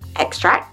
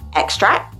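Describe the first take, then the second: First: The sound is dropped completely. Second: The same.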